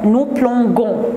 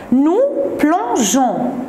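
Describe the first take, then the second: First: The g is hard, like the g in go. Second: The g is soft, like the s in measure. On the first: The speaker calls it wrong. "Si je ne mets pas le E, qu'est-ce que je prononce?" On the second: The speaker calls it right. "E O N S"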